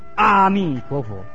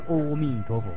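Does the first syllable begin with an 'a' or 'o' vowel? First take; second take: a; o. First: The first syllable is pronounced with an 'a' vowel. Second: The first syllable is pronounced with an 'o' vowel. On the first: The speaker calls it right. "念阿" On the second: The speaker calls it wrong. "不要念阿弥陀佛，很多都念错了"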